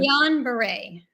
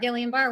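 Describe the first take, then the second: First: The name ends with a two-syllable 'bar-ray'. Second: The name ends with a single 'bar' syllable. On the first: The speaker calls it right. "I've been saying it wrong all this time" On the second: The speaker calls it wrong. "I used to call it Gillian Bar"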